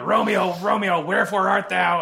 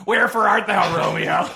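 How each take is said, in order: First: High, loud mock Juliet cry; hammed-up Juliet calling for Romeo. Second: High, loud hammed-up Juliet line; Stan Lee as Juliet. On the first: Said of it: "when Juliet goes". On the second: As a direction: ham it up, louder and higher. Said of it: "no, hey, Stan".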